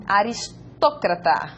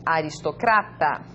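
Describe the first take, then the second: First: Aristócrata slowly, stressed on TÓ; Spanish stress. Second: Aristocrata stressed on CRA, pitch lowered; Portuguese stress. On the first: Teacher reads aristócrata as Spanish for learners, stress on TÓ. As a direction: say aristócrata as a-ris-TÓ-cra-ta. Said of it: "En español". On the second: Teacher reads aristocrata as Portuguese for learners, stress on CRA. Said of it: "En portugués". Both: Shown as a demonstration.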